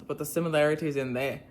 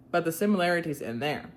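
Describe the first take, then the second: First: Irish attempt drifting into Australian; attempted Irish accent. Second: Reading in an easy Southern accent. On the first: Shown as a demonstration. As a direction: try Irish and land near Australian. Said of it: "that's Australian". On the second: Real, not acted. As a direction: read it plainly with your Southern accent. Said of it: "read it in my nice southern accent".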